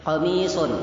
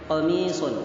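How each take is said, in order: Both takes have the same delivery.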